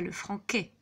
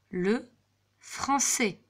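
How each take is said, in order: First: The middle consonant is a hard K sound. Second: The middle consonant is a soft S sound. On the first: The speaker calls it wrong. "et pas le franquet" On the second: The speaker calls it right.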